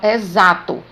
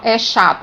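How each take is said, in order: First: The x is sounded like z. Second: The x is sounded like sh. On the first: The speaker calls it right. "eu falo exato. Tem o som de Z" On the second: The speaker calls it wrong. "eu não falo"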